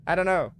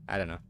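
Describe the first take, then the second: First: Mock-silly I don't know. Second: Said in the usual way. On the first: Repeats answer, second mocking.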